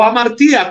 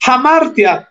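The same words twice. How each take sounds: First: Hamartía with the stress moved to "tí". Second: Hamartia with the stress on "mar", ending in a quick "tya". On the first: Preacher offers the other accent of the Greek word, stress on TÍ in "hamartía". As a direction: say hamartía as ha-mar-TEE-a. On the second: Preacher shows congregation a Greek word, stress on MAR in "hamartia". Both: Shown as a demonstration. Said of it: "como usted le ponga el acento".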